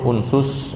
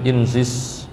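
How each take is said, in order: First: The word is said with u vowels. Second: The word is said with i vowels. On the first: It follows the uf'ul pattern. "Ada yang membaca uf'ul" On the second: It follows the if'il pattern. "ada yang membaca if'il"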